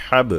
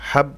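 First: হাব with a released, echoing b; qalqalah. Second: হাব with a closed, unreleased b; no qalqalah. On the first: Teacher correcting the mistake, হাব with the b pushed out. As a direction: bounce off the final b of হাব. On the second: Teacher showing the mistake to avoid, হাব cut short without bounce. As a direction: stop dead on the b of হাব, no echo. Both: Shown as a demonstration. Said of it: "বললে হবে না".

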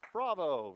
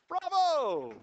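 First: Said in the usual way. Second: High, booming bravo; loud cheer. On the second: Real, not acted. Teacher applauding before the class, loud high cheer. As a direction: shout it out in high-pitched acclaim.

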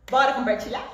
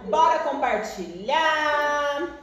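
First: Said in the usual way. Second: Slow, stretched "Bora compartilhar" with a rising end; drawn-out invitation. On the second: Shown as a demonstration. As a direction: draw out "Bora" long and lift the end. ("Bora compartilhar" bem arrastado, subindo no fim)

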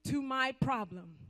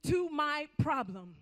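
The two takes are said the same way.

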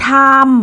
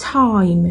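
First: "time" as a stretched "tham"; "time" flattened to one long vowel plus M; Thai-style time. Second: "Time" with an AI-to-EE glide; "Time" gliding from open AH into EE before M; English time. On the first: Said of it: "บ่แม่น time จังซี้เด้". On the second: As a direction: say "Time" as TAH-eem run quickly together. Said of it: "มันเหมือนสระไอ". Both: Shown as a demonstration.

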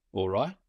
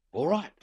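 First: "All right?" asked with a rise at the end; rising question. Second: "All right" answered, falling on "right". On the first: Man at the window asking the shadow below, a rising question. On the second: Shadow below answering the window, falling and final. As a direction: settle it with a firm drop on "right". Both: A narrator's reading. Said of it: "says the shadow".

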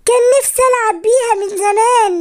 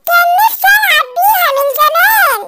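First: Said in the usual way. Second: High-pitched toy mimicry; very high cactus toy voice; talking cactus toy. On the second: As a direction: repeat it like a squeaky talking toy. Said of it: "الصبارة ردت عليا".

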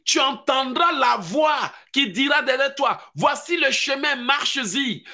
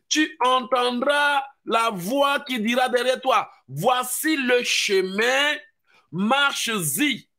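First: Preaching at full force. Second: Slower, drawn-out scripture reading; slow proclaiming. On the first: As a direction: thunder the scripture out. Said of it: "La Bible dit". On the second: Preacher repeats the verse slowly to the congregation, drawn out. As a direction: savour each word of the verse. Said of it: "C'est ce que la Bible dit". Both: Acted.

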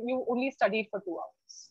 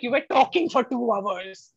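First: Softer, belittling "two hours"; dismissive parent. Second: Dramatise "two hours" as too long; exaggerated duration. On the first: Retold or imitated. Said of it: "in another, it was like". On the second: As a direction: stress "two hours" like a complaint. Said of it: "why, why suddenly that two hours".

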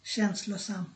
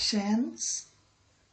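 First: Said in the usual way. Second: শ্যানসলোসাম split slowly into its three parts; slow syllable demo. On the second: Shown as a demonstration. Teacher showing the three parts of শ্যানসলোসাম, slowly. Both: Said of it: "এখানে তিনটা ভাগ".

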